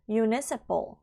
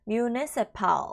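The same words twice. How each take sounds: First: The ending sounds like a reduced 'ple'. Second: The ending sounds like a full 'pal'. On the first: The speaker calls it right. "ple 정도의 발음이다" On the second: The speaker calls it wrong. "pal 하시면 틀린 발음이에요. municipal 하면은 틀렸고요"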